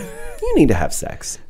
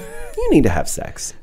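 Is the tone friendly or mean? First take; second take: friendly; friendly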